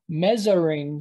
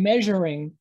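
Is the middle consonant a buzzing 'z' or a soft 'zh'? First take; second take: z; zh. First: The middle consonant is a buzzing 'z' sound. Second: The middle consonant is a soft 'zh' sound. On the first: The speaker calls it wrong. "I'm not measuring something with a Z" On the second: The speaker calls it right. "there's also a ZH sound, a Z, like the English word measure"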